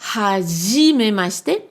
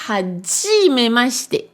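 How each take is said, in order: First: The ji is said without a d sound. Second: The ji is said with a d sound. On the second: "Ji avec un D devant"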